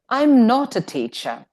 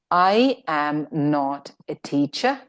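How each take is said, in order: First: I and am are joined into one syllable. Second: I and am are said as separate words.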